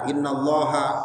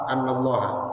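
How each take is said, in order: First: The first vowel is an 'i' sound. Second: The first vowel is an 'a' sound. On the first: This is the reading with kasra, implying an omitted verb of saying. "ada yang baca inna" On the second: This is the reading with fatha, meaning 'that'. "ada yang baca anna"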